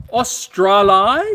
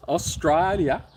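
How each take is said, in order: First: Very slow, loud, high Australian caricature; mock Australian accent. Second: Toned-down Australian echo, falling at the end; milder mock Australian accent. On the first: Host teases a viewer from Australia, mock Australian accent. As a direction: stretch it out in broad Australian, rising at the end. Repeats country name in put-on accent. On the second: Host echoes the viewer's country, milder mock Australian accent. Second, softer take of country name.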